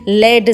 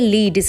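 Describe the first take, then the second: First: The vowel is a short 'e' sound. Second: The vowel is a long 'ee' sound. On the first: It means the metal. "As a noun ... pronunciation किया जाता है लेड से" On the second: It means to guide or lead the way. "जब verb के तौर पे इसे बोला जाता है तब ये लीड होता है"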